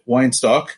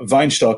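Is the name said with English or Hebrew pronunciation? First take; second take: English; Hebrew. First: The name is said with English pronunciation. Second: The name is said with Hebrew pronunciation.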